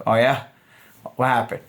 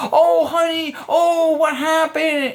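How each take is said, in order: First: Low-key, lower-pitched acknowledgment; active listening. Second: Very high, gushing fake sympathy; overly nice concern. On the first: Coach shows man reacting to her general topic, casually attentive. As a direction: stay relaxed and simply prompt her. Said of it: "give the active listening". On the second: Coach mocks man being ingenuine to a woman, overly nice. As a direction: coo at her with exaggerated concern. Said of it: "If you're being overly nice". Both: Shown as a demonstration.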